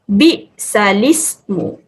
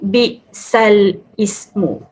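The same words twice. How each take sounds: First: The l joins the i, sounding li. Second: The i starts separately, apart from the l. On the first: The speaker calls it right. "Bacaan yang tepat adalah" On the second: The speaker calls it wrong.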